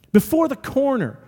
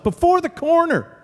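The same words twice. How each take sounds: First: Said in the usual way. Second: "Before the corner" said much higher and stressed; emphatic. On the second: Shown as a demonstration. Pastor telling congregation of the miracle, emphatic and high.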